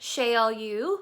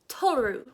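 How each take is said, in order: First: The name is said sounding like Sheol. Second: The name is said sounding like Toru. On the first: The speaker calls it wrong. "in my mind, I pronounced his name Sheol" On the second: The speaker calls it right. "the correct pronunciation is"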